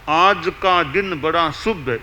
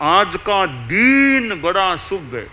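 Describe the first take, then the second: First: The vowel in 'din' is short. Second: The vowel in 'din' is long. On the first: The speaker calls it right. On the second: The speaker calls it wrong.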